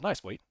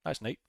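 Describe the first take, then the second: First: "Wade" said with a W and a final T, the wrong name; first slip, "Nice, Wade" with a W sound; misread name. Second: "Nate" said with an N, rhymes with late; corrected name. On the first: Streamer reading a viewer's name says it wrong first, a name slip. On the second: Streamer corrects the viewer's name to "Nate", plainly said. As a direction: fixes it to "Nate", the name said right. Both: Real, not acted.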